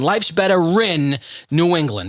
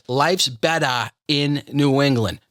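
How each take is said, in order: First: An R sound links 'better' to 'in'. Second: No R sound links 'better' to 'in'. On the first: The speaker calls it right. "That That's the true Boston accent" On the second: The speaker calls it wrong. "No, no, we put an R there"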